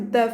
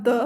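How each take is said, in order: First: Said in the usual way. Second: "d" as a heavy emphatic consonant, Arabic style. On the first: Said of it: "the emphatic d for d". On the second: Shown as a demonstration. Teacher showing emphatic sounds, "d" said emphatic. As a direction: say "d" dark, with pharynx constricted. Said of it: "which is the emphatic d for d".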